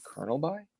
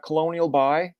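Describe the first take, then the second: First: "Colonel" said like "kernel"; "Colonel" in two syllables, with an r sound; correct Colonel By. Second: "Colonial" said in full as co-LO-nee-al; "Colonial" sounded out with four syllables; mispronounced Colonel. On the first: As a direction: say "Colonel By" as KER-nel By. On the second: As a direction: say "Colonial By" as if it were the real name. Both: Retold or imitated. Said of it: "You mean Colonel By".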